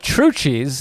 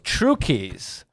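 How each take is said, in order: First: The second part begins with a 'ch' sound. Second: The second part begins with a 'k' sound. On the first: This is how everyone commonly said the name. The speaker calls it wrong. "everybody called it True Cheese" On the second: This matches the store's own slogan. The speaker calls it right. "their slogan was the true key to shopping, and so we were like, no, it's True Keys"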